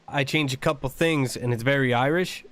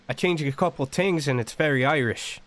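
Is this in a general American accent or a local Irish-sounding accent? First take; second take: general American; Irish-sounding. First: It is said in a general American accent. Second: It is said in a local Irish-sounding accent. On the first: "instead of" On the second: "it sounds very Irish"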